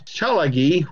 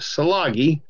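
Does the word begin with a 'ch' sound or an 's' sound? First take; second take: ch; s. First: The word begins with a 'ch' sound. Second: The word begins with an 's' sound. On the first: The speaker calls it right. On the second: The speaker calls it wrong.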